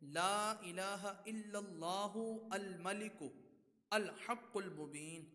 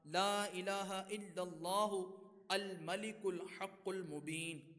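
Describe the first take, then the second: First: Some words are separated, the last ones joined. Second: The words are run together without breaks.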